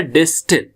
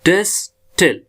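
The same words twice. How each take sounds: First: Said in the usual way. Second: distil as two syllables with a clear pause between; split into syllables. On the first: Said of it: "हमारा word है". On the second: Shown as a demonstration. Teacher shows a two-syllable word, distil split by a pause. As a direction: say डिस, pause, then टिल for distil. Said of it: "दो syllable का word है".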